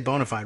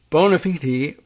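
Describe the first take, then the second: First: It is said with a casual American pronunciation. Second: It is said with a traditional, formal pronunciation. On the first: "we can say bona fide, really, honestly, here in America" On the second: "to give it the uh, proper pronunciation"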